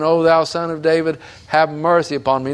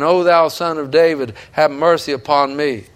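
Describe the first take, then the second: First: Crying out. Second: Pleading cry. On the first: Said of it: "He kept saying". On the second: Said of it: "why was he screaming and crying". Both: Retold or imitated.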